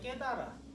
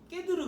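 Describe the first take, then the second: First: The later vowels are pronounced as 'a'. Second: The later vowels are pronounced as 'eu'. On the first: The speaker calls it right. "융통성 있게 읽으면" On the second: The speaker calls it wrong. "두 번째 세 번째는 으라고 읽으니까"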